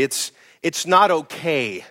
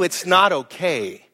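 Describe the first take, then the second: First: Said in the usual way. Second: Slow, weighty "it's not okay" with "not" stressed; firm stress on not. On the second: Shown as a demonstration. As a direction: lean hard on "not", slowly. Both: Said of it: "Can I just tell you".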